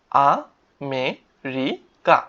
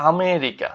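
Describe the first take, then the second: First: আমেরিকা very slowly as আ, মে, রি, কা; four long, separate beats in আমেরিকা; syllable by syllable. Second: Said in the usual way. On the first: Shown as a demonstration. Teacher spelling out a country name, syllable by syllable. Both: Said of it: "আমরা এখানে দেখি কি আছে".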